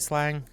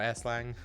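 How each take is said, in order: First: It is said as one plain word. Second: It starts with a separately spoken letter S. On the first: "do people say slang" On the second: "or S slang?"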